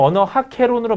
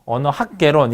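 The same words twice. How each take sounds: First: "언어학 개론"을 학과 개가 이어져 거센 ㅋ로 들리게; "개론"의 첫소리를 "캐론"처럼 거세게. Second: "언어학 개론"을 학 받침을 살려 끊어 읽기; "개론"의 첫소리를 거센 ㅋ 없이. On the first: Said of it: "보통 언어학 개론으로 많이 써요". ("언어학 개론"을 [어너하캐론]처럼 발음) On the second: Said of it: "읽으시는 분들도 있는데". ("언어학 개론"을 ㅋ로 합치지 않고 발음) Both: Shown as a demonstration.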